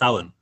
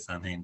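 First: The word is pronounced with a W sound inside. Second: The word is pronounced just as it is spelled. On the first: The speaker calls it right. "but it's Samhain; a phonetic spelling would be with a W" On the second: The speaker calls it wrong. "if you looked at it directly and you pronounced it, you would say"

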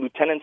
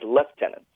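First: The first syllable sounds like 'loo'. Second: The first syllable sounds like 'lef'.

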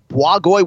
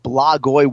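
First: The B is followed by a W sound. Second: The B is followed by an L sound. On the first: The speaker calls it right. "Blagoy with a W" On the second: The speaker calls it wrong. "not Blagoy with an L"

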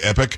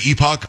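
First: The word is said the non-British way. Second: The word is said the British way. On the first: This is how the speaker says it. "I say Epic" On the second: This is how some other people say it. "Some people say Epoch. ... The people who say epoch are British snobs"

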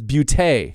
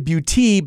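First: The word ends with an 'ay' sound. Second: The word ends with an 'ee' sound. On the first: The speaker calls it right. "but it's Beauté" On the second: The speaker calls it wrong. "I would think it should be Salon de Beauté by Nikki Lee"

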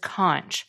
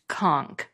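First: The word ends with a ch sound. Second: The word ends with a k sound. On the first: The speaker calls it wrong. "which I pronounced as conch" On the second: The speaker calls it right. "it's actually pronounced conch. So people from Key West can be called conks"

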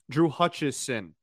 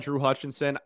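First: The surname has no extra n sound inside. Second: The surname has an extra n sound inside. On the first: The speaker calls it right. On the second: The speaker calls it wrong.

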